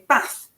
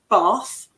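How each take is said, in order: First: It is said in a northern English accent. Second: It is said in the speaker's own accent. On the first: "somebody from the north of England would say" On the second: "I say, for example"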